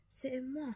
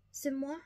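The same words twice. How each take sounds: First: "C'est moi." said higher in a put-on voice, falling flat; French "C'est moi." as a weary statement. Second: High, rising, offended French "C'est moi?"; indignant French "C'est moi?" with a rising end; French exclamation. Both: A narrator's reading. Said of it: "Antoinette sanoi".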